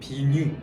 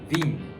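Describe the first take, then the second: First: It ends with a stressed 'nyu' syllable. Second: It ends cleanly without a 'nyu' syllable. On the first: The speaker calls it wrong. "한국어로는 비뉴, 이렇게 뉴를 강조를 하는" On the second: The speaker calls it right. "프랑스어로는 깔끔하게 그냥 빈"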